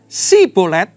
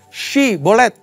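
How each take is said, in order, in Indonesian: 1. Kata ini diawali dengan bunyi s biasa. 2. Kata ini diawali dengan bunyi sh. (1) "nggak pakai y, ... jadi tidak dapat mengucapkan dengan tepat" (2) "pakai y"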